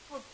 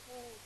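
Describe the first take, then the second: First: The vowel is short, as in book. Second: The vowel is long, as in moon. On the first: This is the habitual everyday pronunciation. The speaker calls it wrong. "We are uh, habituated to pronounce food" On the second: This is the standard pronunciation. The speaker calls it right. "its correct form is food"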